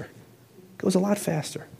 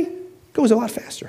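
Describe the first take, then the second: First: Much softer, slow echo. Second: Whisper. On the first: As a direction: let it sink in, slowly. Repeated line, softer take. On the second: Repeated line, whispered take. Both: Shown as a demonstration.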